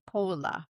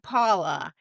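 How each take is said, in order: First: The name has an English pronunciation. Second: The name has a non-English pronunciation. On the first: This is how the name's owner says it. "She would say Pola because she's English" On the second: This is how the speaker's own group says it. "we would say Paula"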